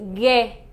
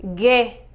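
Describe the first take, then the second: Both takes have the same delivery.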